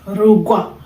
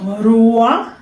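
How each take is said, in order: First: It is said with a g sound before w. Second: It is said without a g sound before w. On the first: The speaker calls it right. "it has the G sound in between" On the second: The speaker calls it wrong. "it's not Rua"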